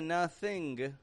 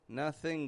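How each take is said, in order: First: The word ends with a released hard g. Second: The word ends in ng with no g. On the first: The speaker calls it wrong. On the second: The speaker calls it right.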